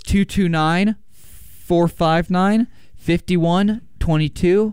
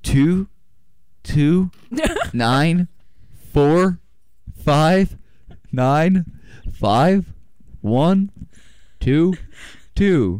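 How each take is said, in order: First: The number is said at normal speed. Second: The number is said slowly.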